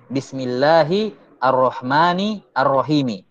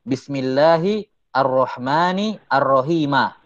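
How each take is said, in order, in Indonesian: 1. Kata terakhir berakhir dengan vokal i. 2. Kata terakhir berakhir dengan vokal a. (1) "wajah yang pertama sesuai dengan qiraah" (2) "bisa dibaca nasab"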